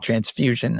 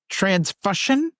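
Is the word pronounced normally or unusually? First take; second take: normally; unusually. First: The word is pronounced in the usual way. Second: The word is pronounced in an unusual way. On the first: This is the word that was intended. The speaker calls it right. "she meant transfusion" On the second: A classmate misread the word aloud. The speaker calls it wrong. "she said transfusion"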